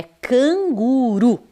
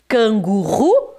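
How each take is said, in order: First: "canguru" with a single tapped R; drawn-out "canguru", soft R between the vowels; correct soft R. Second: "Canguru" with a guttural R, as in "Rua"; slow, rising "Canguru" with the initial-R sound; wrong R sound. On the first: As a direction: say "canguru" slowly with a light tongue-tap R. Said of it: "Não, é canguru". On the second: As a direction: say "Canguru" with a strong throaty R, questioning. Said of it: "agora não é mais ru". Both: Shown as a demonstration.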